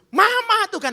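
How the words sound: It is said angrily, like a shout.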